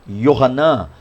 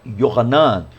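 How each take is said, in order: Both takes have the same delivery.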